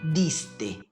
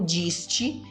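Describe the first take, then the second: First: The D and T are plain, hard sounds. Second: The D and T sound like 'dj' and 'ch'. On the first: The speaker calls it right. "Letra D com som de D mesmo e letra T também com som de T mesmo" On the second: The speaker calls it wrong. "Não diste"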